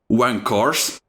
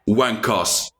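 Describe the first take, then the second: First: It is said without a British accent. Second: It is said in a British accent.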